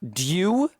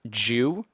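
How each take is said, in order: First: It begins with a d followed by y. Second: It begins with a j sound. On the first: "a du" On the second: "the D gets turned into a J"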